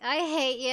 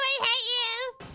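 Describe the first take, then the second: First: It is said flatly with little feeling. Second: It is screamed with intense emotion.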